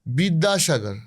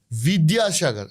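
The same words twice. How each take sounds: First: বিদ্যাসাগর with a Bengali b, biddashagor; Bengali pronunciation. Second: বিদ্যাসাগর with a v, vidyasagar; Hindi-style pronunciation. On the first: Guest giving the Bengali way of saying it, b sound. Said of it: "আমরা বলি". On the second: Guest contrasting the Hindi way of saying it, v sound. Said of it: "ওরা বলে". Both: Shown as a demonstration.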